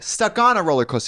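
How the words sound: The stress falls on unusual words, song-like. The speaker calls it wrong. "You wouldn't say"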